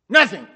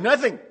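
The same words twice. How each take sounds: First: The word is spat out sharply and forcefully. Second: The word is said in a plain, calm way.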